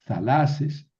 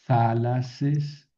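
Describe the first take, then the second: First: Thalases corrected to tha-LA-ses; stress on middle syllable. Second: Thalases said THA-la-ses, accent unmoved; stress on first syllable. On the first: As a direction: move the accent onto the LA of thalases. (thalases con acento en la penúltima sílaba) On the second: (thalases con acento en la primera sílaba) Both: Shown as a demonstration. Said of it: "¿Por qué aquí sí moví el acento?".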